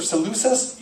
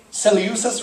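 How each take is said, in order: First: "Seleucus" said suh-LOO-sus; alternative pronunciation. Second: "Seleucus" said sel-ee-YOO-sus; alternative pronunciation. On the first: Preacher offers the second version of a name, "Seleucus" as suh-LOO-sus. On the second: Preacher offers the first version of a name, "Seleucus" as sel-ee-YOO-sus. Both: Shown as a demonstration. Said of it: "whenever you hear me say Seleucus or Seleucus".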